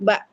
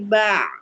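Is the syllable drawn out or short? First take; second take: short; drawn out. First: The syllable is short and clipped. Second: The syllable is slightly drawn out. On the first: The speaker calls it wrong. "enggak ba aja" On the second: The speaker calls it right. "Ainnya agak dimelarin"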